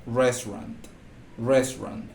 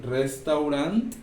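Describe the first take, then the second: First: Restaurant clipped to two syllables, like resran; English pronunciation. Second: Restaurant read slowly letter by letter, every syllable sounded, res-tau-rant; spelled-out pronunciation. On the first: Teacher giving students the real English sound, clipped resran. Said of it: "La pronunciación es". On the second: Teacher to Spanish-speaking students, showing the written form, slowly sounded out. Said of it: "A excepción de la E que va al final". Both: Shown as a demonstration.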